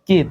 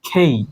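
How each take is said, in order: First: The k sound has no puff of air. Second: The k sound has a strong puff of air. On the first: The speaker calls it wrong. "এটাকে আমরা কে বলে থাকি" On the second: The speaker calls it right. "এটার উচ্চারণ হবে খেই"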